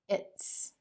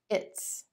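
First: The words are merged into one contracted syllable. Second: The words are merged into one contracted syllable.

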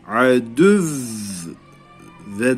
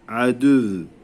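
First: The word ends with a hard, stressed stop. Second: The word ends with a soft, weak stop. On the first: The speaker calls it right. "böyle vurgu yapıyoruz" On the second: The speaker calls it wrong. "Yumuşak değil yani bu şekilde durmuyoruz"

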